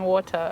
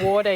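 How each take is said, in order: First: It is said with a British-sounding pronunciation. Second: It is said with an American pronunciation. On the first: The speaker has picked this up from others. "I think I'm still saying water" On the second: This is the speaker's usual way of saying it. "I don't think I'm back to saying water yet"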